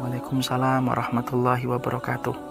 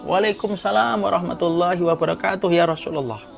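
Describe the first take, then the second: First: The greeting is said quietly. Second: The greeting is said loudly.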